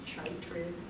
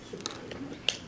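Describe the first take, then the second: First: The word begins with a 'ch' sound. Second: The word begins with a 'k' sound. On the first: The speaker calls it wrong. "It looks like it should be chitrid" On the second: The speaker calls it right. "That C H sound is usually pronounced K instead"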